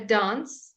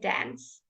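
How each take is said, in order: First: It is said in a British accent. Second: It is said in an American accent.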